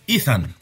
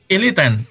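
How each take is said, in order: First: The name is said with two syllables, Ethan. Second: The name is said with three syllables, Elitan. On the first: The speaker calls it right. "es Ethan" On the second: The speaker calls it wrong. "el nombre no es Elitan"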